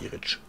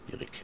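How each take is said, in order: First: The name ends with a 'tsch' sound. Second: The name ends with a 'k' sound. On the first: The speaker calls it wrong. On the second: The speaker calls it right.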